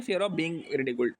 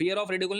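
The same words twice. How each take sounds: First: "being" set apart in a slower phrase; slow down and pick out "being" as the correction; correcting, with deliberate weight on "being"; stress on BEING. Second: Said in the usual way. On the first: Shown as a demonstration. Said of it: "नहीं". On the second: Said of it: "fear of ridicule नहीं".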